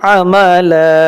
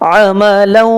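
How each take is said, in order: First: It ends on a long drawn-out 'a' sound. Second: It ends by gliding into a 'w' sound. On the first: The reader stops after this word. "এখানে যদি থেমে যায় তাহলে লাম আলিফ জবর লা হবে, দুই আলিফ টান হবে" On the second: The reader continues into the next word without stopping. "যদি না থেমে একসাথে মিলাই পড়ি... ইদগাম করে পড়তে হবে"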